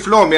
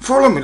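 First: "follow me" squashed into "flomi"; run-together "follow me". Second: "follow me" in three syllables, pitched high; clearer "follow me". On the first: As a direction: say "follow me" as two quick syllables, "flomi". («follow me» κολλητά, σαν «φλόμι») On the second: («follow me» ψηλά και καθαρά, «φό-λο-μι») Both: Acted. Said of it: "ε, το λέει παστρικά".

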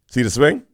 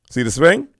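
The two takes are said the same way.

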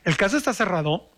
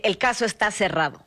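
First: "El caso está cerrado" with an unsure questioning lift; questioning tune. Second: "El caso está cerrado" said with force, falling at the end; decisive, final downward tune; firm falling statement. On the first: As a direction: make the verdict sound doubtful. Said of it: "Es como que no está tan cerrado". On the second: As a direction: close it like a judge's verdict. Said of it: "Con fuerza, intención y acabar bien". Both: Shown as a demonstration.

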